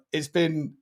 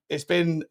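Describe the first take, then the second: No difference in how they are said.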